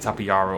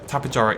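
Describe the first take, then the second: First: The J is pronounced as a soft sound. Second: The J is pronounced as a hard sound. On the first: The speaker calls it wrong. "I know I say Tapejara all the time" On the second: The speaker calls it right. "is how you pronounce it... it is a harder J"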